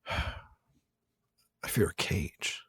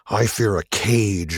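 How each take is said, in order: First: It is said in a deflated, subdued tone. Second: It is said in an angry, forceful tone. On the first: She is confronting her fear and feels beaten. "almost a deflated moment" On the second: She defiantly declares her fear. "sort of angry"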